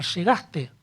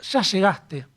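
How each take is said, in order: First: Said in the usual way. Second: "¿Ya llegaste?" with a touch of anxiety on "ya"; anxious question. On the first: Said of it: "uno puede preguntar". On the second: Shown as a demonstration. A philosopher shows the anxious way to ask a friend, lightly worried. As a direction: lean into "ya" as if you've been waiting. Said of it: "otra forma de preguntar sería".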